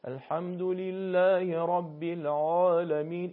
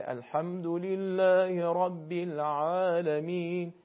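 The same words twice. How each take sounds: First: الحمدلله رب العالمین recited slowly with a thick, full ع in العالمین; slow demo of the wrong thick reading; wrong heavy ع. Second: الحمدلله رب العالمین recited slowly with a light, thin ع in العالمین; slow, careful right reading; correct recitation. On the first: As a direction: show the mistake by making the ع in العالمین broad and heavy. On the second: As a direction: chant الحمدلله رب العالمین with the ع kept light, not thick. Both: Shown as a demonstration. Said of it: "این اشتباهه".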